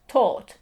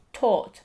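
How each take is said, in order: Both takes have the same delivery.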